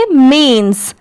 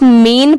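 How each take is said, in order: First: मीन्स ending in a clear "ns"; careful मीन्स, closed on a hiss of "s"; final S sounded. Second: मीन ending on the "n"; no final S. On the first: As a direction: add an "s" after the n in मीन्स. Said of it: "एस लगने की वजह से क्या पढ़ेंगे". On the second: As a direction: leave the "s" off मीन. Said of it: "तो इसे सिर्फ मीन पढ़ते". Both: Shown as a demonstration.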